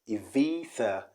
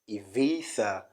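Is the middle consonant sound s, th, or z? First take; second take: th; th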